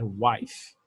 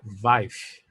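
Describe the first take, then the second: First: The word begins with a W sound. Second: The word begins with a V sound. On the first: The speaker calls it right. "É wife" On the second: The speaker calls it wrong. "Não é wife, vamos dizer assim"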